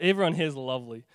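The tone sounds sarcastic. The speaker calls it wrong. "that sounded sarcastic"

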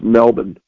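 Melbourne is said the way Australians say it. The speaker calls it right. "Apparently it's pronounced Melbourne"

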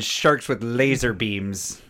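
It is said in a put-on villain voice. The speaker calls it right.

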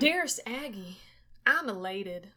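It is read in a Texas accent.

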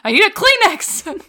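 It is yelled angrily.

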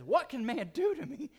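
It is asked in a mocking, sarcastic tone. People can obviously do plenty of harm.

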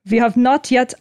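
It is said in a put-on Russian accent.

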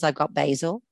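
Basil is said with an American accent.

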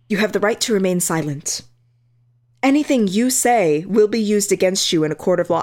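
It is read in an exaggerated, dramatic way.

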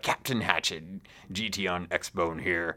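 It is read in a put-on pirate voice.

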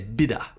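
It is said in a New Zealand accent. "a New Zealander would say bitter"

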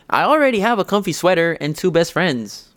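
It is said in a put-on character voice.

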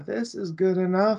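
It is said in a relaxed, satisfied tone. The result is fine and nothing more is needed. "this is good enough, I can just relax"

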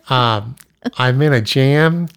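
It is said in an imitated, put-on voice.

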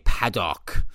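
It is said in an exaggerated South African accent. "really bad South African accents"

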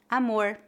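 The final R is retroflex.

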